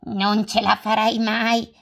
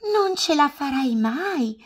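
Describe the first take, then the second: First: Hedgehog doubting. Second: High, louder squirrel voice; squeaky squirrel warning; squirrel doubting. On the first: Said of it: "disse Porcospino". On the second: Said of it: "disse Scoiattolo". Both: Acted.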